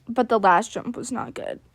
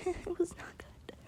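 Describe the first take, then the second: First: Said in the usual way. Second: Soft, slow whisper through a laugh; a rueful laughing aside. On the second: Real, not acted. Comment then repeated in whisper.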